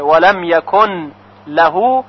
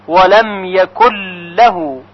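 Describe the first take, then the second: First: ولم یکن له with the ن said before ل; nun kept. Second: ولم یکن له with the ن merged into a doubled ل; merged nun. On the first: Teacher showing یکن له read without merging. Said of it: "اگر کسی ادغام نکنه". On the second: Teacher showing the merging in یکن له. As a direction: run یکن into له with no ن. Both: Shown as a demonstration.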